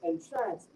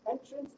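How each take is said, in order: First: "entrance" as the verb, en-TRANCE; stress on second syllable. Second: "Entrance" as the noun, EN-trance; stress on first syllable. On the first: Student contrasts two words for examiner, "entrance" stressed on TRANCE. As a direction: put the weight on TRANCE in "entrance". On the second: Student contrasts two words for examiner, "Entrance" stressed on EN. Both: Shown as a demonstration. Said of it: "these two are very different words".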